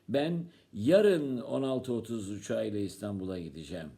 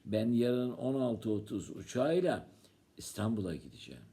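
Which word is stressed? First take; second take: yarın; İstanbul'a. First: The word 'yarın' is stressed. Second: The word 'İstanbul'a' is stressed. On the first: The trip happens tomorrow, not another day. "Sen ne gün gideceksin?" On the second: The destination is Istanbul. "Sen yarın nereye gideceksin?"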